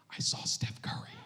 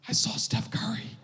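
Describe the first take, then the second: First: Put-on hushed, breathless little girl; awed child whisper. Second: Put-on higher, breathy kid voice; lightly voiced girl, still dazzled; starstruck child. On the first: Daughter telling dad she saw Steph Curry, an awed whisper. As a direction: whisper it in awe like a starstruck kid. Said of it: "she goes". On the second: Daughter repeating to dad she saw Steph Curry, lightly voiced. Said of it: "Twenty minutes later".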